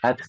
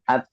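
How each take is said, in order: First: The final t releases a soft puff of air. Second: The final t stops with no air released. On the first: The speaker calls it right. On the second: The speaker calls it wrong. "bukan at"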